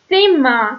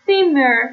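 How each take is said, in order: First: «سیما» with the final er opened to an "ah"; er پایانی مثل آ. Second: «سیمر» with the final r pronounced; er پایانی با ر. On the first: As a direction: end «سیما» on an open "a", no r heard. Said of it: "به سمت آ تلفظ بشه". («سیما» با پایانی کشیده به سمت آ) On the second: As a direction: close «سیمر» on "-er", sounding the r. («سیمر» با تلفظ ر در آخر) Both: Shown as a demonstration.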